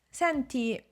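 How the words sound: It is said in a friendly, polite tone.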